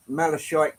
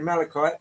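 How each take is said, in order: First: Malachite with a sh sound instead of k; mispronounced malachite. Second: Malachite said as mala-kite, with a hard k; careful fix, malachite with a hard k; corrected malachite. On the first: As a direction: slip on malachite, sh in the middle. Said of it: "Uh, sorry". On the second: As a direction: malachite with a clear k sound. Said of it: "Always make that mistake". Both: Real, not acted.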